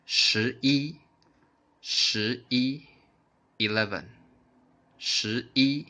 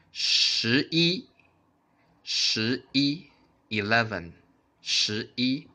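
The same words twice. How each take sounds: The two takes are said the same way.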